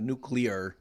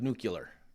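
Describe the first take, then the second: First: It is said with the standard 'new-clear' sounds. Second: It is said with the 'new-cue-lar' sounds. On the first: The speaker calls it right. "even when I'm clearly saying a nuclear" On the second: The speaker calls it wrong. "accuse me of nuclear"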